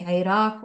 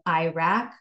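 First: The name is said closer to the native pronunciation. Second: The name is said with an anglicized pronunciation. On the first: The speaker calls it right. "closer to how those nationalities would pronounce them" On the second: The speaker calls it wrong. "instead of"

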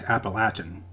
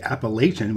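First: The word is said in the local regional way. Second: The word is said in the northern, western way. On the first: The speaker calls it right. "the correct pronunciation of the mountain range is in fact Appalachian" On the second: The speaker calls it wrong. "People in the north and west will usually say Appalachian"

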